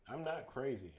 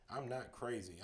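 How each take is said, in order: First: Sudden loud protest; shouting. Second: Said in the usual way. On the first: Acted. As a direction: blurt it out as a shout. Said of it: "I shouted suddenly".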